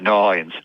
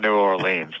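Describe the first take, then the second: First: It is said the way locals say it. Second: It is said the way visitors say it. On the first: The speaker calls it right. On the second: The speaker calls it wrong.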